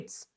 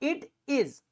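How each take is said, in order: First: It is said as one contracted word. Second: It is said as two full words.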